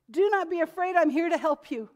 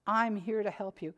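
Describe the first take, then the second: First: Higher and louder, pressing the promise home; ringing second reading; emphatic repeat. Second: Said in the usual way. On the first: Shown as a demonstration. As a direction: drive "I'm here to help you" with force. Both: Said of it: "He says it twice".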